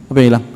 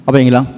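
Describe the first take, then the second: No difference in how they are said.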